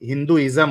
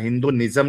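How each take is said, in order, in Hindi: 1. इसे '-ism' से पहले n के बिना बोला जाता है। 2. इसे '-ism' से पहले n के साथ बोला जाता है। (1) "हिंदुइज़्म होता है" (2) "हिंदुनिज़्म नहीं होता है"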